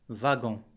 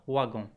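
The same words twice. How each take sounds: First: The word begins with a V sound. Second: The word begins with a W sound. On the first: The speaker calls it right. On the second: The speaker calls it wrong.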